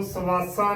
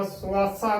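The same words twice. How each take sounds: First: ਸਵਾਸਾ with a full "a" after the s, "sa-vaa-saa"; wrong pronunciation. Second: ਸਵਾਸਾ run together as "suaasaa"; short u after the s in ਸਵਾਸਾ; correct pronunciation. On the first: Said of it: "ਨਹੀਂ ਕਰਨਾ". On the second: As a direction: glide from s straight into "waa" in ਸਵਾਸਾ. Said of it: "ਕਰਨਾ ਹੈ ਸੱਸੇ ਨੂੰ ਔਂਕੜ ਦੇ ਨਾਲ". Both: Shown as a demonstration.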